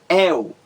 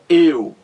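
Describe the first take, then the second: First: The diphthong starts with an open vowel. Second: The diphthong starts with a closed vowel. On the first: "Quando você diz el, é aberto" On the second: "Quando você diz eu, é fechado"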